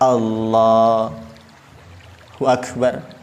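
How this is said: There is a pause between the two words. The speaker calls it wrong. "Jangan dijeda"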